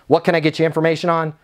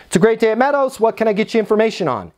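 First: Brusque, rushed phone answer; rude, bothered. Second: Higher, positive phone greeting, quick second half; smile through the phone. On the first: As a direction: answer fast as if the caller is bothering you. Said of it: "that sounds like I'm being rude". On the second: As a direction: sound upbeat and down to business. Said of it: "like a smile through the phone". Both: Shown as a demonstration.

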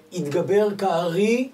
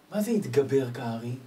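First: "התגבר כארי" slow and loud, stretching כארי; emphatic recitation. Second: Said in the usual way. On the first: Shown as a demonstration. Preacher slowly declaiming "התגבר כארי" to his audience.

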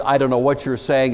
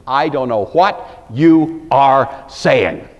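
First: Said in the usual way. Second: I DON'T KNOW WHAT YOU ARE SAYING, each word slow, separate and louder; every word stressed. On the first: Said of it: "The last phrase". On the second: Shown as a demonstration. Preacher shows the Greek emphasis, each word of "I don't know what you are saying" stressed. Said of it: "every word has emphasis".

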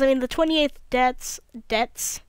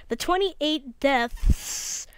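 First: "twenty-eighth deaths" lisped, th for t; lisping. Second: "twenty-eight deaths" said very slowly, each t crisp; careful correction. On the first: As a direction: lisp on "twenty-eighth" and "deaths" from a dry mouth. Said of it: "My lisp is so real right now because my mouth is so dry". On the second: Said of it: "Yeah, you're right, Seth". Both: Real, not acted.

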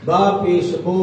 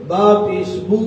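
First: बो with an o sound; majhul reading. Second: बू with a pure u, lips rounded; a clean rounded बू; correct pesh. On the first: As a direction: let बू slide down into बो. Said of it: "मजहूल तो वैसे ही अच्छा नहीं लगता". (मजहूल बो, गलत तरीका) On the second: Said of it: "पहले वाला अच्छा लग रहा है ना". (सही बू, होंठ गोल) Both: Shown as a demonstration.

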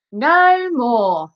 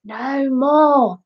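First: High, declaimed stage cry; amateur actor's exclamation; exclaiming. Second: Raised cue from the piano; feed the actor his missing words; helpful stage prompt; teacher prompting. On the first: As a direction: proclaim the prompted words grandly. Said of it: "Elvis exclaimed". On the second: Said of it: "Mister Lace prompted". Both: A narrator's reading.

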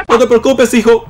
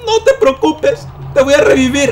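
First: Reassurance with a laugh in it; amused reassurance. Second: Mock reassurance. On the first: Pretend. Player to his dead game son, amused reassurance. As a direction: reassure through a leftover laugh. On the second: Player promising to revive his son, squeaky mock reassurance. Repeats reassurance in put-on high voice.

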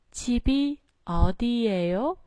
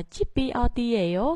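First: 집이 어디예요 with 집 and 어 pitched low, then rising; low phrase starts. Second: 집이 어디예요 without lowering 집 and 어; wrong, undropped intonation. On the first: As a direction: start each word of 집이 어디예요 low and lift it. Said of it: "mình xuống giọng từ chip và o". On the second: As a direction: unnatural reading, 집 and 어 kept up. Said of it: "Nó không có xuống giọng ở chỗ đó". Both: Shown as a demonstration.

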